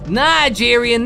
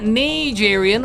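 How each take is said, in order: First: The first syllable sounds like 'nine'. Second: The first syllable sounds like 'knee'. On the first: "he would have pronounced it nine" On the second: "not knee"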